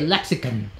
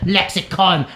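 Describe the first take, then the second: First: It is said in a posh British accent. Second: It is said in an American accent. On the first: The speaker is an aristocrat. The speaker calls it right. "us aristocrats should say lexicon" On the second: The speaker is a common American. The speaker calls it wrong. "instead of lexicon. How American is that?"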